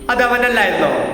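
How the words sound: It is said in a happy tone. "Normally സന്തോഷത്തോടെ പറഞ്ഞു കഴിഞ്ഞാൽ"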